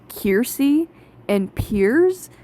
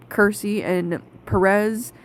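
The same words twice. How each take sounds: First: "Kiersey and Piers" with long EER vowels; dub's pronunciation. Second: "Kersey and Perez" with a KUR first syllable and stressed second in Perez; own pronunciation. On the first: Reviewer showing the dub's disliked version, drawn-out dub pronunciation. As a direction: say "Kiersey and Piers", Piers as one syllable. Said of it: "they are pronounced". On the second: Reviewer naming two characters her preferred way, own pronunciation. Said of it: "that's not how I pronounce them". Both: Shown as a demonstration.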